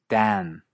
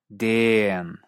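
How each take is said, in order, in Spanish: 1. La vocal se eleva antes de la n, al estilo canadiense. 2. La vocal se alarga mucho, al estilo australiano. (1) "En Canadá, la N hace que en lugar de sonar A como en trap, la vocal suene A" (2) "o incluso como una vocal extra larga"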